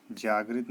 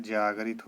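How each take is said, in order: First: जागृत in two syllables, jaag-rit; wrong pronunciation. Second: जागरित in three syllables, jaa-ga-rit; correct pronunciation. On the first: Teacher voices the error, "gri" cluster in जागृत. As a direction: join "g" and "r" in जागृत. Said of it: "नहीं होता है". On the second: Teacher gives the right form, three-syllable जागरित. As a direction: put a clear "ga" into जागरित. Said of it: "होता है". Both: Shown as a demonstration.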